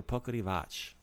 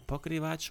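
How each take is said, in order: First: "pokrivač" with a short vowel slipped between k and r; second pronunciation variant. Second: "pokrivač" said in three syllables, k running straight into r; first pronunciation variant. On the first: Teacher offering the other way to say "pokrivač", as po-kuh-ri-vach. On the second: Teacher offering the first way to say "pokrivač", kr run together. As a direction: say "pokrivač" with a tight "kr" cluster. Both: Shown as a demonstration. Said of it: "pokrivač or pokrivač".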